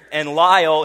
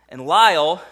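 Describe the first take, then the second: First: Lyle punched loud and falling; stress on Lyle. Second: Lyle loud and slightly raised before a long pause; stress on Lyle. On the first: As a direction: land hard on Lyle. Dramatic emphasis on the name. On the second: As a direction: hang on Lyle then pause. Dramatic pause after the name. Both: Acted.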